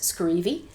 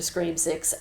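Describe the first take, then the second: First: The ending is blended into one made-up word. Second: The ending is said as the number six.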